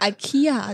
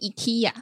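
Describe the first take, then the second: First: It is said the American way. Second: It is said the Swedish way.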